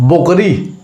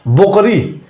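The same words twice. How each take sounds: First: The first vowel sounds like 'o'. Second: The first vowel sounds like 'o'.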